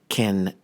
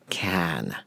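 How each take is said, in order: First: The vowel is a weak, reduced schwa. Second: The vowel is a full, strong vowel. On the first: The speaker calls it right. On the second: The speaker calls it wrong. "not can"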